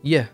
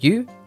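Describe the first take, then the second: First: The word is reduced to the weak form 'ye'. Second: The word is said in its full form, 'you'. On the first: "the weak form is ye" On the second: "the word you"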